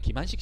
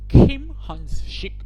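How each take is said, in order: First: The name is said with a plain Korean accent. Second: The name is said with a buttery English-like accent. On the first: The speaker calls it right. "그냥 김한식 씨예요" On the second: The speaker calls it wrong. "버터 발음 발라가지고 김한식 뭐 이렇게 읽을 필요 없어요"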